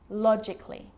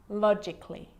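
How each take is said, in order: Both takes have the same delivery.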